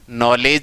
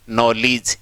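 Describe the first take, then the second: First: The second syllable has an 'eh' vowel. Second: The second syllable has an 'ih' vowel. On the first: The speaker calls it wrong. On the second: The speaker calls it right.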